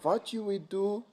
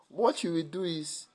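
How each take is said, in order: First: It is said in an Indian accent. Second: It is said in a Nigerian accent.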